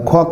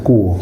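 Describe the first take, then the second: First: The family name is said in Cantonese. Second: The family name is said in Mandarin. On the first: "Kwok is my uh, family name" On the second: "in Mandarin is Guo"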